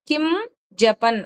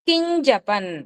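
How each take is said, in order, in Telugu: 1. పదాలు వేరుగా ఉన్నాయి, 'm' నాసికంతో. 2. పదాలు కలిసి ఉన్నాయి, 'ñ' నాసికంతో. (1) "కిం జపన్ అనేది పదం అయితే" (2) "కలిపినప్పుడు ఏమవుతుంది అంటే కింజపన్. అక్కడ చూస్తారా ఒక ఇని సౌండ్"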